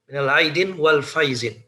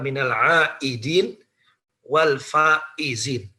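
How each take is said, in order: First: The vowels in both words run together smoothly. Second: A glottal catch splits the vowels in both words. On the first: The speaker calls it wrong. "saya sering mendengar kita lidahnya ini" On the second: The speaker calls it right. "padahal yang benar"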